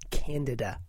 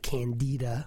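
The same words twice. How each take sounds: First: The stress is on the first syllable. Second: The stress is on the second syllable. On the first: It names the yeast. The speaker calls it right. "It's Candida, by the way" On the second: It names the play. The speaker calls it wrong. "not Candida, which is sort of a George Bernard Shaw play"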